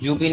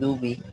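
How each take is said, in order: First: The word begins with a 'j' sound. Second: The word begins with a soft 'd' sound. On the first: The speaker calls it wrong. "জুবি না বলে" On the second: The speaker calls it right. "বলতে হবে দুবি। দুবি পাতলা ভাবে দাল আছে।"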